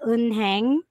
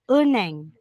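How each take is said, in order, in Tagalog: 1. Malinaw na binibigkas ang tunog ng h sa gitna. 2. Ganap na hindi binibigkas ang tunog ng h sa gitna. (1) "Hindi po yan unheng" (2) "mawawala na po si H"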